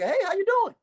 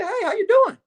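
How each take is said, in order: First: High, tight nervous repeat. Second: High, strained nervous greeting; nervous greeting to the cop dad. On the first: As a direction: force a nervous hello again. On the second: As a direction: squeak out a nervous hello. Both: Retold or imitated. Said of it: "I'm nervous in the motherfucker".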